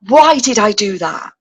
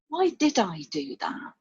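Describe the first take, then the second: First: It sounds like a harsh, self-critical reproach. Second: It sounds like a gentle, curious question.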